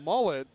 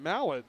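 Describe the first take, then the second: First: The first vowel sounds like 'uh' in 'mull'. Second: The first vowel sounds like 'a' in 'mal'. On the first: The speaker calls it right. "it's pronounced Lauren Mullet" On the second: The speaker calls it wrong. "not Lauren Mallet"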